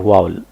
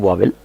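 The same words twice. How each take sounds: First: वावल said as "vaa-val", short second syllable, no e sound; correct pronunciation. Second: वावेल said as "vaa-vel", with a clear e in the second syllable; common mispronunciation. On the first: Teacher showing students the correct way to say vowel, वावल with a short val. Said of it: "हालांकि दुरुस्त तलफ़ुज़ क्या है". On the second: Teacher imitating how many people wrongly say vowel, वावेल with vel. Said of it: "बहुत से लोग हमें वावेल बोलते हैं". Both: Shown as a demonstration.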